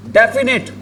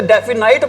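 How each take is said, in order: First: डेफिनेट said as "defi-net", short e in the last syllable; teacher modelling the right way to say डेफिनेट; correct pronunciation. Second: डेफिनाइट said as "defi-nite" with a long "ai"; teacher quoting the students' wrong डेफिनाइट; common mispronunciation. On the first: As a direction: say डेफिनेट ending in "-net", not "-nite". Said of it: "लेकिन आपको पता होना चाहिए इसको क्या नहीं बोलते". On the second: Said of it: "इसको कई बच्चे बोल देते". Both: Shown as a demonstration.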